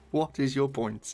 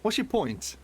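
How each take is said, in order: First: Each word said slowly and firmly in "What is your point?"; slow, pointed demand; slow emphatic repeat. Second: Indignant challenge. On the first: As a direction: spell it out, deadpan and slow. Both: Real, not acted.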